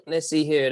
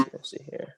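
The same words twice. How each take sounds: First: Said in the usual way. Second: Under-the-breath whisper; host whispering while hunting for the picture; whispered to himself. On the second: Real, not acted. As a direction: mutter it to yourself while searching.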